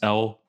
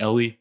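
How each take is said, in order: First: The name is said with one syllable. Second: The name is said with two syllables. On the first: The speaker calls it right. "it's Elle" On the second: The speaker calls it wrong. "it's not Ellie"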